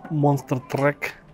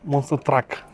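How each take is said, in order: First: The last syllable has an 'e' vowel. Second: The last syllable has an 'a' vowel. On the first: The speaker calls it wrong. "До сих пор не научился выговаривать" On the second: The speaker calls it right. "извиняюсь"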